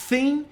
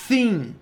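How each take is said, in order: First: It starts with a lisped th sound. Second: It starts with a lisped th sound.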